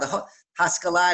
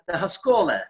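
First: It is said with Hebrew pronunciation. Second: It is said with Yiddish pronunciation. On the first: "the Haskalah in Hebrew" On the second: "Yiddish, you would say"

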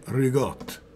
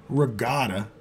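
First: A g sound in the middle; the ending is cut off. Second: A k sound in the middle; the word is said in full. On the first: "you say rigotte" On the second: "you don't say regatta"

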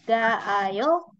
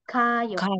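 First: The two a vowels are said separately. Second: The two a vowels merge into one. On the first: The speaker calls it wrong. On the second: The speaker calls it right. "tapi kita singkat jadi kayo"

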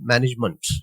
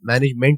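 First: The last syllable has a reduced, schwa-like vowel. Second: The last syllable has a full 'e' vowel. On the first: The speaker calls it right. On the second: The speaker calls it wrong.

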